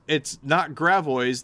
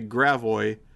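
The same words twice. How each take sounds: First: It is said with a French-style pronunciation. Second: It is said with an Americanized pronunciation. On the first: This is not how local people say it. "It's not Gravois. They don't say Gravois" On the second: This is how local people say it. "They say Gravois. But it's still, you know, not exactly correct in the pronunciation"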